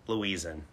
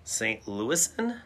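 First: "Louisan" as "loo-EE-zan", falling; alternative pronunciation. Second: "Louisan" tried as "LOO-iss-an", slow and rising; pronunciation query. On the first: Weighing options aloud, "Louisan" as "loo-EE-zan". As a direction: try "Louisan" with a Z sound. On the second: Asking the word person, "Louisan" as "LOO-iss-an". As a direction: slowly test "Louisan" with an S sound. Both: Shown as a demonstration. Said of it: "Louisan, Kristen, you're the word person".

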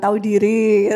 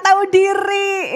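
First: Said in the usual way. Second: Shout. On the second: Shown as a demonstration. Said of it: "Ketikkan di kolom komentar".

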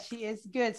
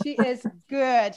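First: Said in the usual way. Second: She is good said slowly and louder, leaning on good; emphatic. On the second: Real, not acted. Host praising her guest, stretching out good. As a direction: lay weight on good, drawn out.

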